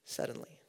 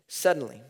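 First: Breathy whisper of suddenly. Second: Said in the usual way. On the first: Shown as a demonstration. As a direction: hush it, almost unvoiced. Preacher whispers key word.

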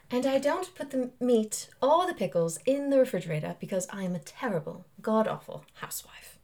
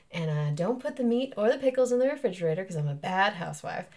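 First: Put-on English accent. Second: Mississippi accent on a stage line. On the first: Actor redoing play line on request, English accent. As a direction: deliver it in stagey English accent. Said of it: "in an English accent?". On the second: Actor demonstrating her play line, Mississippi accent. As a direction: say it like a Mississippi housewife. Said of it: "now I can get into it". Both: Shown as a demonstration.

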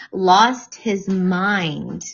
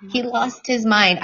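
First: Lost his mind drawn out very slowly; each word of "lost his mind" spaced out and dragged; dramatic slow. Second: Said in the usual way. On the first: Real, not acted.

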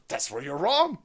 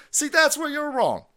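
First: Said in the usual way. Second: Much higher, emphatic See, that's where you're wrong; emphatic correction. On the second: Shown as a demonstration.

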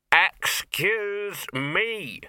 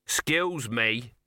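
First: Drawn-out, higher and louder excuse me. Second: Said in the usual way. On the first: Acted. Dog trying to get the trolls' attention, slow loud excuse me. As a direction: finally demand their attention. Dog finally shouts to be heard.

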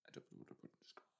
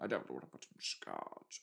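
First: Soft unvoiced whisper of "I don't know what to put in scotch". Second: Lower, mock-character read of "I don't know what to put in scotch"; a hint of a gruff character saying "scotch"; lightly put-on lower voice. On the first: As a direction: breathe "scotch" out in a secretive whisper. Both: Voicing game dialogue twice.

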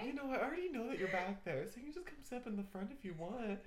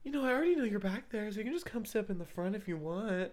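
First: Soft seductive murmur; sultry narrator. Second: Seductive voice. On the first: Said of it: "I tried to do it, like, in a seductive voice too". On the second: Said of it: "in a seductive voice too". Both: Retold or imitated.

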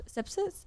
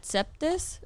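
First: "sepsis" said properly, sep-sis; "sepsis" fixed, no t this time; corrected. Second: Sepsis said as "septis" with a t; "septis", a t slipped in before the final is; mispronounced. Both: Real, not acted.

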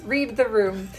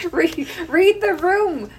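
First: Said in the usual way. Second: "Read, read the room" slow, high and loud, each word leaned on; emphatic advice. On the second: Shown as a demonstration. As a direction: hammer home "read the room" like a warning to colleagues. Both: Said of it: "Read, read the room, estheticians".

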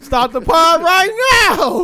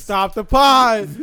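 First: High, drawn-out demand; mock outraged order. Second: Slow, drawn-out command; mock halt order. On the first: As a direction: escalate into a hammed-up, high-pitched halt. Repeats the halt, escalating. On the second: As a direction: stretch out the order to stop. Calls a halt to the joke.

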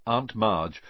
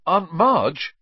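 First: Said in the usual way. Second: Sudden high, loud outburst; blurted out. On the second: A narrator's reading. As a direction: blurt the name out in alarm. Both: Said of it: "he blurted out".

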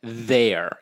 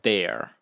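First: Properly pronounced th in "there"; careful standard th. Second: THERE said as "dare", hard d; casual "there" starting on a d sound; Irish d for th. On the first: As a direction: say "there" correctly, tongue between the teeth for th. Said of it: "You know how they say". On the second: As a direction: swap the th of "there" for a d. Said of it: "instead of "there". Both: Shown as a demonstration.

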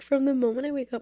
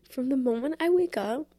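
First: Said in the usual way. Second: Getting emotional. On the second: Real, not acted. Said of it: "oh my God, I'm gonna get emotional".

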